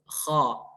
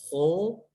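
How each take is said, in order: First: The letter is said with the tongue back raised. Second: The letter is said without the raised tongue back. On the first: The speaker calls it right. "I put my base tongue, yeah, to the palate" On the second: The speaker calls it wrong. "it's not ho, that's incorrect"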